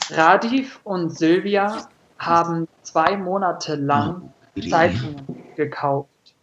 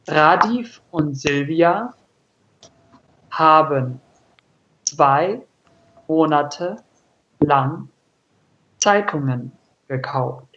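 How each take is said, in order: First: It is read at normal speed. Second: It is read very slowly.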